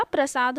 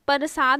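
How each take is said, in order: First: प्रसाद with a joined "pr", "pra-saad"; प्रसाद as "prasaad"; correct form. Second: प्रसाद mispronounced as "par-saad"; wrong form. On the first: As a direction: say प्रसाद with no vowel between p and r. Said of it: "प्रसाद होता है". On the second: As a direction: put the vowel before the r in प्रसाद. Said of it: "प्रसाद नहीं होता". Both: Shown as a demonstration.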